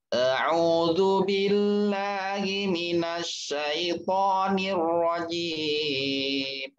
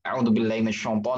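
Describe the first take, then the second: First: It is recited very slowly. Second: It is recited fast.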